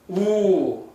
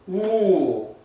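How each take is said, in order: Both takes have the same delivery.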